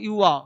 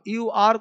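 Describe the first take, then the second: First: The r at the end is silent. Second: The r at the end is pronounced. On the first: "अब यू आर को यू आ" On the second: "अब यू आर को यू आ"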